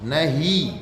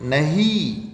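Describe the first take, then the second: The two takes are said the same way.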